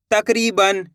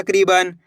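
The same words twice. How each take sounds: First: तकरीबन split as tak, ree, ban; chunk by chunk. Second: Said in the usual way. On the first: Shown as a demonstration. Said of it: "दो दो करके". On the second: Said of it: "तो मिलके बन जाएगा".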